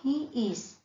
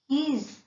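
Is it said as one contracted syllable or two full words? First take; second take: full words; contracted. First: It is said as two full words. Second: It is said as one contracted syllable. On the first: "stands for he is" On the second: "stands for"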